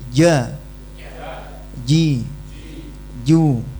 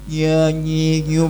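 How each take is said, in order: First: The consonant keeps a buzzing, bouncing echo. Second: The consonant sounds like a soft nasal ny. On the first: The speaker calls it right. "Tetap ada pantulannya" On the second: The speaker calls it wrong. "jadi ya, nyi, nyu, bukan begitu"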